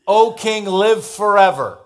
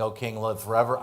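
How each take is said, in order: First: Higher and louder, slow and formal greeting; O king, live forever ringing out slowly; loud royal proclamation. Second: Forever rising, half-mocking; grudging, sarcastic greeting. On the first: A narrator's reading. Daniel's proclamation from the den. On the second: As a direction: say it like you barely mean it. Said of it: "I would not be saying".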